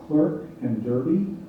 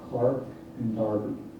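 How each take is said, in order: First: The vowels are pronounced as in American English. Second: The vowels are pronounced as in British English.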